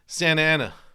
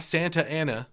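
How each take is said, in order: First: The T in Santa is dropped. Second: The T in Santa is pronounced. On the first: "they don't pronounce the T"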